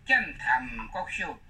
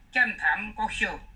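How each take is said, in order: First: The second syllable is in the third tone. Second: The second syllable is not in the third tone. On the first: The speaker calls it right. "这个坛要练第三声" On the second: The speaker calls it wrong. "这是不正确"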